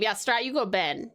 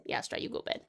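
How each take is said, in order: First: Said in the usual way. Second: Breathy whispered repeat, no voice at all. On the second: Shown as a demonstration. Host whispering the bedtime order to Strat. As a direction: hush it like a secret.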